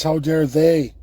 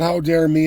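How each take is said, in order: First: "they" hit hardest, falling at the end; stress on they. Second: "dare" hit hardest, "me" left light; stress on dare. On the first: Correcting himself to blame them, stress on they. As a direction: punch "they" in "How dare they?". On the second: Rejecting the wrong reading, stress on dare. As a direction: lean on "dare" in "How dare me". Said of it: "But it's not". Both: Shown as a demonstration.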